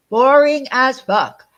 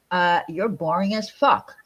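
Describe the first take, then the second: First: Slow, loud, drawn-out insult; louder emphatic repeat. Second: Said in the usual way. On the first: Real, not acted.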